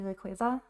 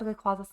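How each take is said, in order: First: The middle part sounds like the word quasar. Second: The middle part does not sound like quasar. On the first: This is the official way to say it. "technically supposed to be Rayquaza ... supposed to be like Ray plus Quasar" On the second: This is a habitual way to say it. "I've said Rayquaza since I was a kid"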